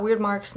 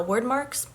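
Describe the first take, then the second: First: "weird" said like the word weird, rhymes with beard; mispronouncing "weird marks" as weird; wrong pronunciation. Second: "word" said exactly like the word word; correct pronunciation. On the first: Correcting a mispronounced book term, saying weird. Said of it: "which apparently they're called word marks, not weird marks". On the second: Correcting a mispronounced book term, saying word. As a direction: rhyme "word" with bird, the right way. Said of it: "a pronunciation guide yesterday on Pinterest". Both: Shown as a demonstration.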